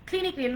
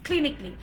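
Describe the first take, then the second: First: "clinically" with a full "kaa-lee" ending; Bangla-style "clinically", four full syllables; wrong pronunciation. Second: "clinically" as KLI-nik-lee; "clinically" squeezed to clinic-lee; corrected pronunciation. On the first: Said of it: "not clinically". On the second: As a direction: say clinically in three syllables, no "kaa". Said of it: "it's clinically". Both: Shown as a demonstration.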